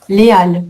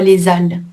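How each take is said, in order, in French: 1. Il n'y a pas de son z de liaison avant halles. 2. Un son z relie les à halles. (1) "C'est aussi un H aspiré"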